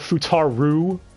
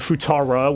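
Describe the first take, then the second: First: The name ends with a u vowel. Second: The name ends with an a vowel. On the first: "with a U" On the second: "with an A"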